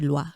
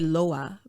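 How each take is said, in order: First: The word ends in an 'ee' sound. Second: The word ends in an 'ah' sound. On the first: The speaker calls it right. "but it's actually loi" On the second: The speaker calls it wrong. "I used to say loa"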